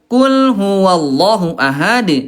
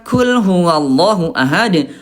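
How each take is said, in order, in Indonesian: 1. Konsonan pertama adalah k yang berat dan tebal. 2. Konsonan pertama adalah k yang ringan dan tipis. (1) "Ini Bunda huruf qaf" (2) "Tapi kalau pakai kaf"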